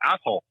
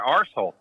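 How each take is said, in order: First: It is said with an American pronunciation. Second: It is said with an Australian pronunciation.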